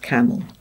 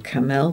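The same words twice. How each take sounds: First: The second vowel is reduced to a weak schwa. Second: The second vowel is said as a full vowel. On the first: The word is recognised as a familiar spoken word. "but then quickly see that that's camel" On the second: The word is being sounded out letter by letter. "Those children might go camel when they blend it"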